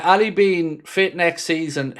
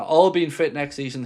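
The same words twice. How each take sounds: First: "Ali" read as the name Ali, ah-lee; "Ali being fit" with Ali said like the player's name; misread. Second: "All" said as the plain word awl; "All being fit" with a clear awl sound; corrected reading. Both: Real, not acted. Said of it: "I misread that".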